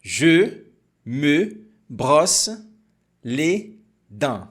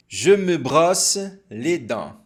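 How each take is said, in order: First: Very slow, syllable by syllable. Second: "Je me brosse les dents" at normal pace; now the full sentence naturally; normal speed. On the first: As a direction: stretch it out for learners. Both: Shown as a demonstration.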